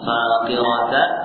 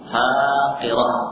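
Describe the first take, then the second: First: The word ends with a t sound and vowel. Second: The word ends with an h sound. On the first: The reading continues without stopping. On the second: The reader stops on this word.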